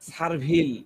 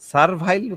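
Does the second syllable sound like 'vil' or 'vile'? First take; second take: vil; vile. First: The second syllable has a short 'i' vowel. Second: The second syllable has an 'ai' glide vowel.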